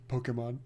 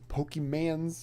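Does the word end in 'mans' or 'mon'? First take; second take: mon; mans. First: The word ends with a 'mon' sound. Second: The word ends with a 'mans' sound. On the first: The speaker calls it right. "It's like Pokemon" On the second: The speaker calls it wrong. "watching Rick trying to like pronounce them"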